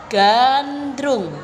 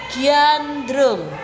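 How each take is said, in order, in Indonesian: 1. Konsonan pertama langsung masuk ke vokal. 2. Bunyi y meluncur setelah konsonan pertama.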